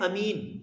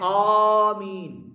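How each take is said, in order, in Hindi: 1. पहला स्वर छोटा है। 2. पहला स्वर लंबा खींचा जाता है। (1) "एक लफ्ज होता है अमीन" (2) "आमीन यानी लंबा करके कहते"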